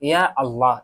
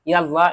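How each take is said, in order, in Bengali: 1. শব্দ দুটি আলাদাভাবে উচ্চারণ করা হয়। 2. শব্দ দুটি একসাথে উচ্চারণ করা হয়। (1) "এভাবে বলবেন" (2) "সেভাবে বলবেন না"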